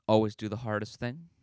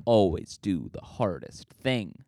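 First: Said in the usual way. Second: ALWAYS slow and drawn out, landing low; slow motto. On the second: Shown as a demonstration. Vlogger reciting his catchphrase to viewers, slow and emphatic. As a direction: preach it slowly like a catchphrase. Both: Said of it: "what do I always say?".

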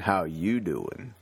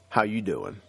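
First: Slow, drawn-out New Jersey greeting; lower, lazy-paced New Jersey "How you doing?"; New Jersey accent. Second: Said in the usual way. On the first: Shown as a demonstration. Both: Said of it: "that New Jersey accent".

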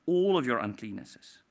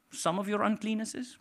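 First: "all" set firmly apart and falling; stress on all. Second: "some" lifted with a questioning rise; stress on some. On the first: Preacher correcting himself to all, stressed. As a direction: lean hard on "all" to correct "some". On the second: Preacher misquoting the verse before correcting it, stressed. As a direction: lean on "some" as if unsure. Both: Shown as a demonstration.

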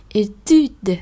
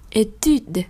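No difference in how they are said.

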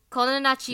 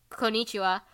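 First: Osaka accent. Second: Said in the usual way. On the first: Shown as a demonstration. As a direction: say "Konnichiwa" the Osaka dialect way. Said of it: "speaks in an Osaka accent". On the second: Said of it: "instead of saying".

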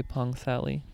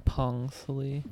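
First: Pang Sally, second word like the English name Sally; Americanized pronunciation. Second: Pang Sali with a plain P, no H sound; silent H. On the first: Joking about the town's name, Pang Sally said American-style. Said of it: "Very American of you". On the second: Explaining the town's name to listeners, Pang Sali with silent H. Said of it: "you don't pronounce the H". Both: Shown as a demonstration.

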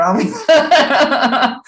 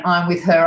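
First: Much higher, louder, slow through laughter; laughing punchline. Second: Said in the usual way. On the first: Retold or imitated. Voicing his insistent energy, laughing. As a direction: stretch it out laughing.

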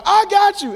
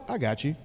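First: Shouted high and loud; booming shouted promise. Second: Quiet low reassurance; gentle murmured reassurance; soft and low. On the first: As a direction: belt it out like a shout. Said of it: "it's not like a". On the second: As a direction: say it softly, close and calm. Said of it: "It's like". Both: Shown as a demonstration.

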